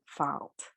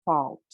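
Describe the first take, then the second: First: Fault with an unrounded AH, like FAHLT; contrasting vowel. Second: Fault with a rounded AW vowel. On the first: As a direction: open fault to a plain AH instead of AW. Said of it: "as opposed to fault". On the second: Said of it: "that aw vowel". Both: Shown as a demonstration.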